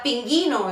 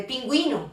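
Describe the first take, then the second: First: Pinguino said with GHI, no W; silent U. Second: Pingüino with a clear GWI; U pronounced. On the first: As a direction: say pinguino as pin-GHEE-no. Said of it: "si no existiera esta". (pinguino, sin pronunciar la U) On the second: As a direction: say pingüino as pin-GWEE-no. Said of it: "en lugar de pingüino". (pingüino, con la U sonora) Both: Shown as a demonstration.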